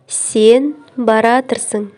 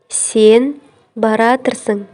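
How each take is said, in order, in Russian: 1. Глагол слит в одно сокращённое слово. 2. Глагол слит в одно сокращённое слово.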